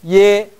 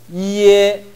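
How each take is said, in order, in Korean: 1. 'i' 소리가 하나의 'ye'로 합쳐집니다. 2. 처음 'i' 소리가 분명하고 강하게 들립니다. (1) "틀린 발음 연습합시다" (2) "이를 조금 살려봅시다"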